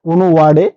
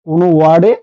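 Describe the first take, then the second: The two takes are said the same way.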